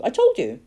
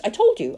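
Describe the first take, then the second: First: Higher, triumphant repeat; gloating. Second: Loud and triumphant; gloating. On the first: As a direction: crow it a second time. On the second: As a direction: crow over being right. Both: Acted. Poacher gloating, repeats himself.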